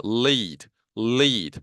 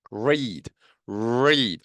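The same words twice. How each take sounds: First: "lead" as leed, with a forward L; L resonating in front. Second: "read" with a drawn R from the back; R resonating inside. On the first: Teacher drilling L against R, forward L in "lead". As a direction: ring the L of "lead" at the front, long ee. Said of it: "앞쪽에서". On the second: Teacher drilling R against L, inward R in "read". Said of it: "안쪽에서 울리죠". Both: Shown as a demonstration.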